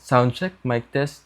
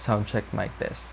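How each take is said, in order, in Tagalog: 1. Tinanggal ang ugong ng fan sa likod ng boses. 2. Maririnig ang ugong ng fan sa likod ng boses. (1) "with noise cancellation feature turned on" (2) "Hollyland Lark M two without noise cancelling"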